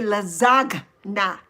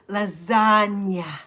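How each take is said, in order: First: The g is pronounced as a hard sound. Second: The g is not pronounced at all. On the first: The speaker calls it wrong. "we don't say lasagna" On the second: The speaker calls it right. "We say lasagna. Lasagna, the G is silent"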